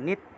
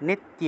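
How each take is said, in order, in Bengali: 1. শেষাংশটি এক দলে জোড়া লাগে, tya। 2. শেষাংশটি এক দলে জোড়া লাগে, tya।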